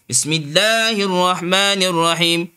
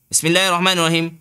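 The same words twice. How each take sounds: First: The long vowels are held for two beats. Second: The long vowels are cut short. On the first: The speaker calls it right. "Kena baca list dua" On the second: The speaker calls it wrong. "Tak boleh"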